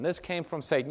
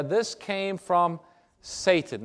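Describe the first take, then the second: First: Said in the usual way. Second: This came from, a long pause, then Satan; slow emphatic reveal. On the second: Shown as a demonstration. Preacher revealing the source of the disease, slow and weighty. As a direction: draw out "this came from" slowly and land "Satan".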